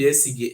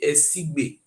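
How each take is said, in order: First: The name ends with a plain 'ge' sound. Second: The name ends with a 'gbe' sound. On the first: The speaker calls it wrong. "Not be Esige" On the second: The speaker calls it right. "Now be the correct pronunciation"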